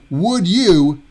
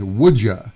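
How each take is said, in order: First: The word 'you' is pronounced in full. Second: The word 'you' is reduced to 'ya'.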